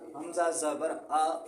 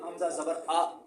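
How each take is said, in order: First: The final vowel is held slightly, without a jerk. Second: The final vowel is cut off with a jerk. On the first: The speaker calls it right. "बस थोड़ा सा लंबा करना है इनको कि झटका भी ना महसूस हो" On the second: The speaker calls it wrong. "ये झटका लग गया"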